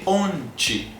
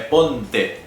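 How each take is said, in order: First: The final syllable is pronounced like 'ti'. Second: The final syllable is pronounced like 'te'. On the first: The speaker calls it right. "você vai dizer ti" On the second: The speaker calls it wrong. "O que você não pode dizer é ponte"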